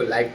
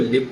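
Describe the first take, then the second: First: The vowel is a long 'eye' sound. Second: The vowel is a short 'i' sound. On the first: It is an adjective meaning broadcast in real time. "इसी को लाइव telecast पढ़ते हैं" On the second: It is a verb meaning to reside. "इसी को लिव पढ़ते हैं"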